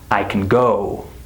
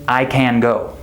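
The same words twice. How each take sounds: First: The word 'can' is unstressed and reduced. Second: The word 'can' is stressed and fully pronounced. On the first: The speaker calls it right. "Can is not stressed in our sentences" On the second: The speaker calls it wrong. "I don't say"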